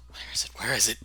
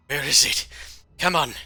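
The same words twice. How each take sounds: First: Half-whispered worried self-talk; muttered searching. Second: Higher, louder agitated self-talk; impatient searching. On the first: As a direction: mumble to yourself as you search. Character mutters while searching drawers. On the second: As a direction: get more desperate as you search. Search grows more desperate. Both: Acted.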